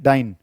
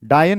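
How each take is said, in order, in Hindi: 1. यह एक अक्षर में बोला जाता है, dyne। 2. यह दो अक्षर में बोला जाता है, daa-yan। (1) "डाइन, D Y N A" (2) "डायन नहीं"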